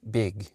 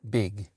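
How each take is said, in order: Both takes have the same delivery.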